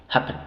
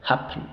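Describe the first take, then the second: No difference in how they are said.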